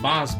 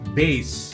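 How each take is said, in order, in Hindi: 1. स्वर 'ah' जैसा सुनाई देता है। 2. स्वर 'ay' जैसा सुनाई देता है। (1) "उसे हम लोग लिखते हैं बास" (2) "लेकिन बोलते क्या है? बेस"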